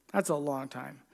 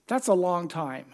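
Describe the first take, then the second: First: Soft low echo of the remark; quieter, lower echo. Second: Said in the usual way. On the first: Shown as a demonstration. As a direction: lower and softer, letting That's a long time sink in. Preacher repeats for effect.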